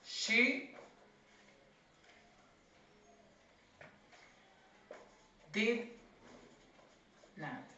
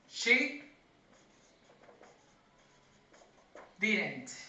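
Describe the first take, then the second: First: Did not is said as two full words. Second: Did not is squeezed into one word, didn't. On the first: "Over here we have the full form" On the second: "if you want to do it with a contraction"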